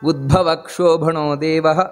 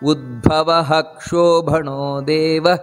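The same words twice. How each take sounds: First: Udbhava ends plainly with no breathy h. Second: Udbhava ends with a full breathy h sound. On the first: The speaker calls it wrong. "ಆ ರೀತಿಯಲ್ಲ" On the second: The speaker calls it right. "ಅಲ್ಲಿ ಪೂರ್ತಿ ವಿಸರ್ಗವನ್ನು"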